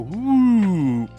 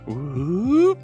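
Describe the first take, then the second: First: The pitch of the voice goes down. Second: The pitch of the voice goes up. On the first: "I try to bring it down" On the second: "you just kind of lift up the voice and you try to like raise the pitch"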